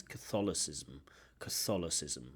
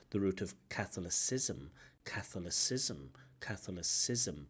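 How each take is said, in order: First: Catholicism stressed on THOL, ca-THOL-icism; correct stress. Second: Catholicism with stress on CATH; wrong stress. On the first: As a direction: put the weight on THOL in Catholicism. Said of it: "but actually it's". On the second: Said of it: "there is a mispronunciation there". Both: Shown as a demonstration.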